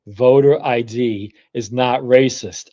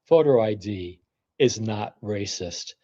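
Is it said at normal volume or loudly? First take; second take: loudly; normal. First: It is said more loudly. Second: It is said at normal volume.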